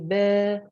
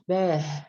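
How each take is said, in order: First: It ends in a plain long vowel. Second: It ends with an h sound. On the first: The speaker calls it right. "Just to say ba" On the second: The speaker calls it wrong. "no ha at the end"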